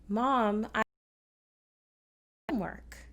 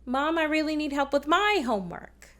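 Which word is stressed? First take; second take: really; my. First: The word really is stressed. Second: The word my is stressed.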